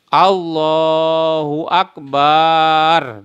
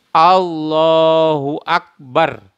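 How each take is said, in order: First: The vowel after b in Akbar is lengthened. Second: The vowel after b in Akbar is short. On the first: The speaker calls it wrong. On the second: The speaker calls it right.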